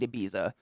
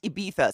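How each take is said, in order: First: The middle consonant is not a th sound. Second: The middle consonant is a lisped th sound. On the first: This is an outsiders' version of the name. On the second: This is the local pronunciation. "It's pronounced Ibiza, so that's the literal"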